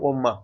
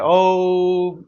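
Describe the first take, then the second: First: The word ends with an extra a vowel. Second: The word ends cleanly on the m sound. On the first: The speaker calls it wrong. "ऐसे नहीं बोल देंगे अंग्रेजी में ओम्मा" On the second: The speaker calls it right. "उसको उच्चारित किया जाता है"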